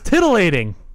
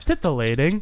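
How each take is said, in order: First: The consonant after the first syllable is a D. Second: The consonant after the first syllable is a T. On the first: The speaker calls it wrong. "Like a tid" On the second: The speaker calls it right. "With a T"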